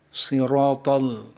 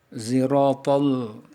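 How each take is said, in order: First: It begins with an emphatic, heavy s sound. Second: It begins with a light z sound. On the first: "dengan huruf shad" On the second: "dengan huruf zai yang tipis"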